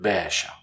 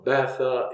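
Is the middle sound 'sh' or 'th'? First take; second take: sh; th. First: The middle consonant is an 'sh' sound. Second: The middle consonant is a 'th' sound.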